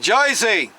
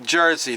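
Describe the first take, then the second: First: It is said in a North Jersey/Brooklyn accent. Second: It is said in a central New Jersey accent. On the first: "if you're in North Jersey or you're from Brooklyn" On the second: "That's how I say it here in central New Jersey"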